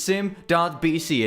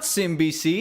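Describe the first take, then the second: First: The name is said with the word dot. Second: The name is said without the word dot. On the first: The speaker calls it right. "It's sim.bc. And yeah, that's totally how you say it" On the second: The speaker calls it wrong. "Not simbc, as I've heard some say"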